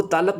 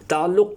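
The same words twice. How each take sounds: First: تالق with a long first vowel, the ain dropped; mispronounced تعلق. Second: Said in the usual way. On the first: Shown as a demonstration. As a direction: imitate students saying تالق for تعلق. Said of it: "وہ تالق بولتے ہیں". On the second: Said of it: "کو وہ تالق بولتے ہیں".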